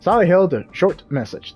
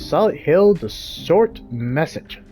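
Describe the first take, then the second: First: The word short carries no extra emphasis. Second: The word short carries heavy extra emphasis. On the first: The speaker calls it right. "There we go. It doesn't feel weird" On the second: The speaker calls it wrong. "I feel like I'm putting emphasis on short message"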